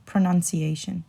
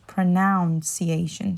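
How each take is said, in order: First: Pronunciation with NUN, not noun, in the middle; pronunciation joined up as pro-NUN-ciation; correct pronunciation. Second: Pronunciation said wrongly as pro-NOUN-ciation; mispronounced pronunciation. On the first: Teacher repeats the word whole, pronunciation with a clear NUN. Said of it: "put the nun instead of the noun". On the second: Teacher shows the mistake she hears, pronunciation with a NOUN sound. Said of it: "So I hear it as pronunciation". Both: Shown as a demonstration.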